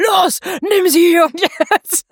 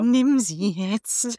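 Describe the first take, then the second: First: Urgent inner voice. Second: Very slow, soft, seductive murmur; tempting inner voice. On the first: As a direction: bellow the command like a pushy inner voice. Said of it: "Und die innere Stimme". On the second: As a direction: coax him slowly under the breath. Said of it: "Cold Mirror im Zwiegespräch mit ihrem Gehirn". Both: Retold or imitated.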